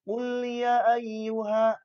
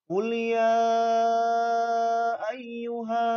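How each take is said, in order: First: The long vowels are cut short. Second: The long vowels are clearly held out. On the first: The speaker calls it wrong. "Tidak boleh dibaca" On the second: The speaker calls it right. "Ini harus dibaca panjang gitu ya"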